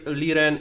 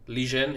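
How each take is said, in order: First: The middle consonant sounds like an English 'r'. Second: The middle consonant sounds like an English 'j'. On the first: The speaker calls it wrong. "who told you Li- Liren is pronounced Lijen?" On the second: The speaker calls it right. "Lijen is the right way"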